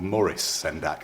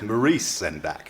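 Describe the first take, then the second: First: The name is said the British way. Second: The name is said a non-British way. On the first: The speaker calls it wrong. "in the U K we call" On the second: The speaker calls it right.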